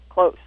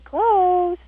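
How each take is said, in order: First: The word is said in a firm tone. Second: The word is said in a soft, unfirm tone. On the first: The command is meant seriously. The speaker calls it right. "you say it in a firm tone" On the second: The command is not meant seriously. The speaker calls it wrong. "You don't say"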